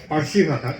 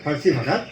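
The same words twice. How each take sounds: No difference in how they are said.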